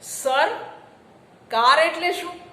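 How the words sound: There is a short break inside the first word. The question asks about the car. "તમે અટક્યા, વિલંબિત"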